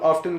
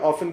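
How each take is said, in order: First: The t sound in the word is pronounced. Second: The t sound in the word is dropped. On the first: "अमूमन वो लोग ऑफ्टन कहते हैं" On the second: "हम UK वाली side पे ऑफन कहते हैं"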